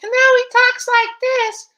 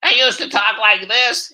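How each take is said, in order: First: Extremely high, loud, slow caricature; sky-high loud cartoon politician voice; Adam Schiff. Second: Older take on a cartoon politician, high and loud; put-on voice, raised and loud; loud, high caricature politician voice; Adam Schiff. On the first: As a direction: squeal it slowly at the very top of the voice. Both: Shown as a demonstration. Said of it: "actually really changed over the years is Adam Schiff".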